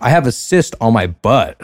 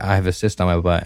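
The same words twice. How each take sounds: First: The sentence is said loudly. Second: The sentence is said quietly. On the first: Everyone nearby can hear it. "Like that. ... you don't have to yell that" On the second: The speaker is too embarrassed to be heard. "they couldn't hear me at all"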